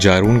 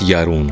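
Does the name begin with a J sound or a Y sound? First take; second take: J sound; Y sound. First: The name begins with a J sound. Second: The name begins with a Y sound. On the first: The speaker calls it wrong. "जारून के बजाय" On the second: The speaker calls it right. "ये लोग जे को वाई pronounce करते हैं"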